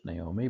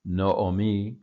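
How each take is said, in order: First: Naomi the English way, nay-OH-mee; everyday English "Naomi", starting nay; English pronunciation. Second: Noomi as no-o-mee, louder; emphatic Hebrew "Noomi", starting no; Hebrew pronunciation. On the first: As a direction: say "Naomi" with an "ay" first vowel. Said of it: "as we would say in English". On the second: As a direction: say "Noomi" with two O sounds in a row. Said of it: "is the pronunciation here". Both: Shown as a demonstration.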